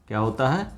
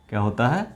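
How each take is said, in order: The two takes are said the same way.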